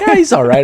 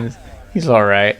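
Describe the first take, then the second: First: It sounds warm and enthusiastic. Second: It sounds dismissive and unimpressed.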